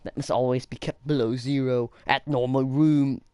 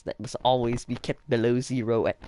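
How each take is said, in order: First: Exaggerated, badly faked Austrian accent; Arnold Schwarzenegger. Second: Loud, faltering Austrian-accent attempt; shaky-success mock Austrian accent; Arnold Schwarzenegger. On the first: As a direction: push the mock Austrian accent harder. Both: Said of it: "I can't do Arnold Schwarzenegger".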